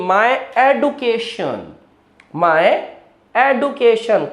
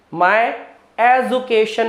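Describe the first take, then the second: First: Education with a d sound, edukeshan, slow; correct pronunciation. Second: Education with a j sound, ejukeshan; wrong pronunciation. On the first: Teacher giving students the right education. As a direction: say education as edu-keshan. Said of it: "एडुकेशन है". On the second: Teacher showing students the wrong education. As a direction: education said the usual Indian way. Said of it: "नहीं". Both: Shown as a demonstration.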